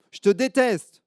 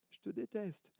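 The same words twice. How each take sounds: First: Put-on high, loud childish yell; loud high I hate you; angry little girl. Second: High, soft faraway repeat; the yell coming back as an echo; faint distant echo. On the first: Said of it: "elle commence à s'énerver". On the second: Acted. Echo answers the girl.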